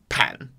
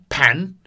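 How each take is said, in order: First: It is said in the third tone. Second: It is said in the second tone. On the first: "Bedroom or living room is third tone" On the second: "Inside the entrance or the kitchen is second tone"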